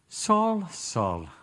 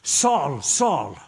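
First: It sounds gentle and caring. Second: It sounds harsh and accusing.

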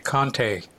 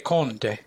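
First: It is said with an American pronunciation. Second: It is said with an Italian pronunciation.

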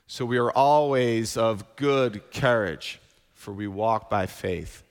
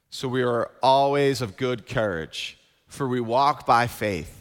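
First: The words 'good courage' get the stress. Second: The word 'faith' gets the stress. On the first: "I'm going to emphasize the word good courage this time" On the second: "we're going to emphasize that word faith"

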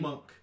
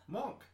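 First: The vowel sounds like the 'u' in 'muck'. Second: The vowel sounds like the 'o' in 'mock'. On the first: The speaker calls it right. "Apparently it's M-U-N-K" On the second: The speaker calls it wrong.

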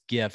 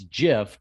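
First: The word begins with a hard G sound. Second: The word begins with a soft J sound. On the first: This is the form many big publications favor. "no, it's GIF" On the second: This is the form the founder chose. "he would correlate it to the peanut butter"

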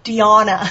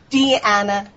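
First: The middle vowel does not rhyme with banana. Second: The middle vowel rhymes with banana. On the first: The speaker calls it wrong. "you are the only person in the world I've ever heard pronounce that as Deanna" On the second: The speaker calls it right. "rhymes with banana"

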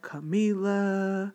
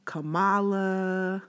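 The two takes are said the same way.

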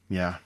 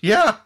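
First: It is said in a solemn tone. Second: It is said in a cheerful tone.

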